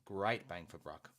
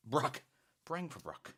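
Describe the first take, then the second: First: Said in the usual way. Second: Put-on high, playful Irish accent. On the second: Host playing with viewer's phrase, Irish accent. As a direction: put on a little Irish lilt. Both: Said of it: "Little Irish accent there".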